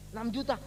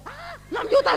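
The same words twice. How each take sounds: First: Said in the usual way. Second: Much higher, louder shocked echo of the price; shocked repeat. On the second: Retold or imitated. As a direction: gasp it out in disbelief at the bill. Kaget mendengar biaya. (kaget sekali mendengar harga enam juta)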